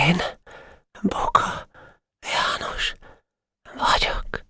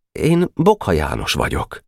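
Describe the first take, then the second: First: Faint whisper, word by word with long gaps; tired, uncomprehending. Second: Said in the usual way. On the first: Acted. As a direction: echo it emptily, exhausted and barely voiced. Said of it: "Fáradt hangon, értelmetlenül mondta utána". (fáradt hangon, értelmetlenül, elhalóan) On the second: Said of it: "szólt folytott hangon a tábornok".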